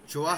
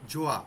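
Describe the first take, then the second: Both takes have the same delivery.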